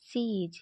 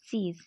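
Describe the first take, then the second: First: Both words are said separately in full. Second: The words are joined into one short syllable.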